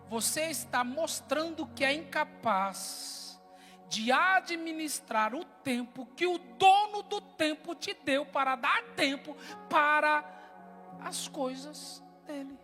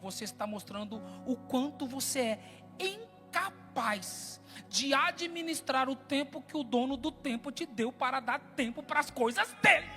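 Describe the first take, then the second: First: It is said at a slow pace. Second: It is said at a faster pace.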